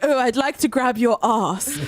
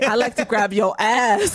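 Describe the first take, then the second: First: It is said in an English accent. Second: It is said in an American accent.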